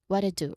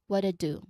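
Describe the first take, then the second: No difference in how they are said.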